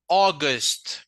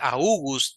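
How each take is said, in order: First: The first vowel is a single open 'aw' sound. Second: The first vowel glides like 'ow' in 'cow'. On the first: The speaker calls it right. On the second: The speaker calls it wrong.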